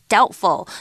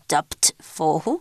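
First: The b sound is left out of the word. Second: The b sound is pronounced in the word. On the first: The speaker calls it right. "the b is silent" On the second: The speaker calls it wrong. "the b is silent, so you don't say doubtful"

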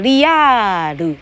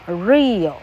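First: It is said as three separate syllables. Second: It is said as a single syllable.

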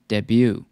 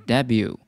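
First: The stress is on the second syllable. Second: The stress is on the first syllable. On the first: It is used as a verb. "当动词的时候呢，重音在第二个音节" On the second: It is used as a noun. "当名词的时候呢，重音在第一个音节"

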